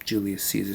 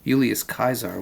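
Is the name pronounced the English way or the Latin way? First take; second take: English; Latin. First: The name is given its English pronunciation. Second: The name is given its Latin pronunciation. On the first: "but we'll just say uh" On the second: "was the Latin pronunciation of it"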